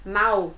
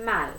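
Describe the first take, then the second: First: "Mal" ending in a u sound, like "mau"; Portuguese mal. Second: "mal" with a clear final L; Spanish mal. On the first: Teacher shows Portuguese "Mal", final L as u. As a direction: say "Mal" the Brazilian way, L turned to u. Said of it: "com som de U". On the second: Teacher shows Spanish "mal", clean final L. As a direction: say "mal" with the tongue up for a real L. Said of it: "Em espanhol, não, vai ser". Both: Shown as a demonstration.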